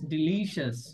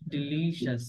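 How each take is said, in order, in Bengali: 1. শেষটা 'shas' এর মতো উচ্চারিত হয়। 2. শেষটা 'shas' এর মতো উচ্চারিত হয়।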